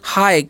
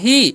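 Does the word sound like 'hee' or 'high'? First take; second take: high; hee. First: The vowel is an 'eye' sound. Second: The vowel is a long 'ee' sound. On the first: The speaker calls it right. "इसे आप लोग को पढ़ना है हाय" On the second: The speaker calls it wrong. "ही कभी नहीं पढ़ना है आपको"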